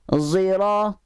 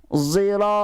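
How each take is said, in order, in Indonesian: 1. Konsonan pertama berbunyi seperti z. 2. Konsonan pertama berbunyi seperti z.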